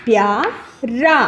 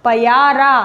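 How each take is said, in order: First: प्यारा said slowly as pya-ra with प and य joined; correct reading. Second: पयारा said as pa-ya-ra with an extra vowel; wrong reading. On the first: Teacher to pupils, reading the corrected प्यारा slowly. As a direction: join प and या into one syllable in प्यारा. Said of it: "को जोड़ना है". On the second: Teacher to pupils, reading the misspelt पयारा aloud. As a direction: sound out the misspelt पयारा as three syllables. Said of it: "गलत है". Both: Shown as a demonstration.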